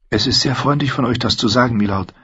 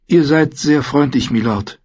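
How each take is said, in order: First: Said in the usual way. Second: Dejected. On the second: A narrator's reading. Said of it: "erwiderte sie niedergeschlagen".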